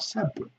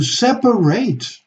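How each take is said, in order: First: The last syllable has a reduced schwa vowel. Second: The last syllable has a full 'ate' vowel. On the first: It is used as an adjective or adverb. "you have to pronounce with the schwa" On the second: It is used as a verb. "That's a verb. So that should be pronounced a"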